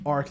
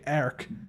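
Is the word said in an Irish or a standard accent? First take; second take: standard; Irish. First: It is said in the speaker's usual accent. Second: It is said in an Irish accent.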